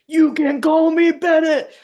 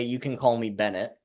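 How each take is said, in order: First: High, loud holler; shouted. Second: Said in the usual way. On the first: Acted. Player imagines Bennett yelling his name at Johnson, shouted. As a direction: shout it out at full pitch, stretching it. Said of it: "like, shouted like a".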